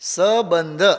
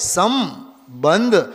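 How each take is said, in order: First: The first syllable has no nasal sound. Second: The first syllable has a nasal sound. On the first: The speaker calls it wrong. "બોલીએ છીએ ખોટું. ... સની માથે મીંડું છે એને તો આપણે ઘોળીને પી જઈએ છીએ" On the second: The speaker calls it right. "Original શબ્દમાં જ છે"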